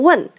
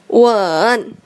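First: It is said with the fourth tone. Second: It is said with the third tone. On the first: It means to ask. "Yang keempat atau terakhir" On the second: It means to kiss. "Yang ketiga"

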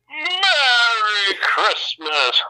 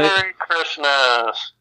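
First: It is said in a jolly Santa voice. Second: It is said in his ordinary plain voice.

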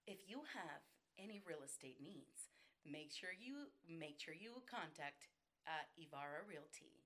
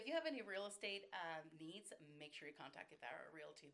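First: It is read in a formal announcer style. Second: It is said casually, like chatting with a friend. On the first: It is an announcement to an audience. "Let's do an announcer" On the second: It is a personal tip to a friend. "And then do the friend one then"

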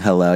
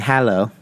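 First: It is said with an ordinary English pronunciation. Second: It is said with a German pronunciation. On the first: "instead of saying hello" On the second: "so in Germany, ... you say hello"

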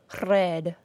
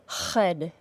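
First: The R is a rolled trill. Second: The R has rough friction from the throat. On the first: "or trill or roll our R sound like this" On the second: "if the back of your tongue is causing friction and a substantial vibration, as a fricative would"

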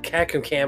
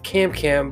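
First: The middle C is sounded as an extra syllable. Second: The middle C is silent, giving two syllables. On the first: The speaker calls it wrong. "at first I was pronouncing it Cacum Cam" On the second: The speaker calls it right. "that second C before the M is silent"

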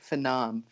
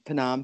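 First: The initial P sound is left out. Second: The initial P sound is pronounced. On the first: The speaker calls it wrong. "I always want to say Phnom for some reason. And I know that isn't right" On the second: The speaker calls it right. "tell me if I'm pronouncing this right"

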